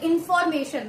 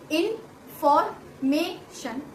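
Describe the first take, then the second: First: The word is said smoothly without breaks. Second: The word is broken into separate syllables.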